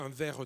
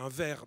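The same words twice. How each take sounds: First: Verre ends with a light added vowel sound. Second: Verre ends on the r with no vowel. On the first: This is how southern speakers say it. "Dans le sud, on dit plutôt... On a ce E" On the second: This is how northern speakers say it. "les gens de la moitié nord... on dit bien un verre"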